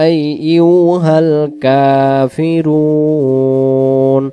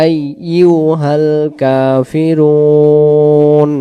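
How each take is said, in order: The two takes are said the same way.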